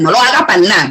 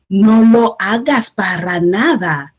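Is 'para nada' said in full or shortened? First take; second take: shortened; full. First: Para nada is clipped to a short pana. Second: Para nada is said in full, all syllables. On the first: "I take off that R A, I take off that D A" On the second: "Instead of saying"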